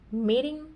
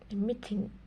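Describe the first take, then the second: First: It is said with a General American accent. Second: It is said with a Jamaican patois accent. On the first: "in general American English" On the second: "in Jamaican patois it would be"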